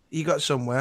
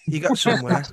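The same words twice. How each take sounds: First: Said in the usual way. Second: Manchester accent. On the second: Shown as a demonstration. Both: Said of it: "What did I have to say again?".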